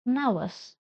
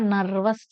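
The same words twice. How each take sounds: First: "nervous" as nuh-vus, silent r; correct pronunciation. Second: "nervous" with r sounded before v; mistaken pronunciation. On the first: Teacher corrects the word for students, "nervous" without r. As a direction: leave the r out of "nervous". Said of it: "It is nervous". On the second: Teacher shows students what to avoid, "nervous" with clear r. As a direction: say "nervous" as nar-vus, r pronounced. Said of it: "It is not nervous". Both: Shown as a demonstration.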